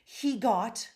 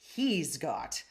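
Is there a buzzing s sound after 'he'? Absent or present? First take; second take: absent; present. First: There is no s sound after he. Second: A buzzing s sound follows he. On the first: The speaker calls it wrong. "he just takes out that buzzy s" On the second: The speaker calls it right. "this is what you would say"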